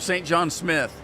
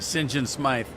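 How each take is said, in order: First: The surname has a short vowel, like 'with'. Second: The surname has a long vowel, like 'scythe'. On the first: "So Saint John Smith" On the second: "but they pronounce it"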